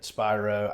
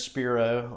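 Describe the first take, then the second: First: The first syllable sounds like 'spy'. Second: The first syllable sounds like 'spear'. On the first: This is how others often say the name. The speaker calls it wrong. "I get Spyro" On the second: This is how the speaker says his own name. The speaker calls it right. "like a spear through an O"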